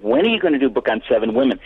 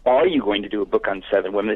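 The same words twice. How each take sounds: First: When pushed as the key word; stress on When. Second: Said in the usual way. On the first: Shown as a demonstration. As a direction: lean on When, insisting. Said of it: "They said". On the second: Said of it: "They didn't say".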